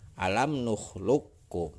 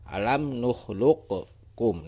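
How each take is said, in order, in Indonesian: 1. Bunyi q menyatu dengan k. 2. Bunyi q diucapkan sebelum k. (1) "Jadi yang benar itu adalah" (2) "Jangan dibaca seperti ini. ... itu salah"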